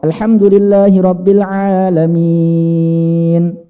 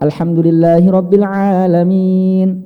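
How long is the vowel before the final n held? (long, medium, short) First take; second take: long; medium. First: The final long vowel is held very long. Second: The final long vowel is held moderately long. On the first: "enam harokat" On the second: "empat harokat"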